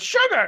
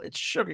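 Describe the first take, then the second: First: High, loud blurted imitation; mock yell in a much higher pitch; retold yell. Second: Said in the usual way. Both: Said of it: "he just yells out the Wordle".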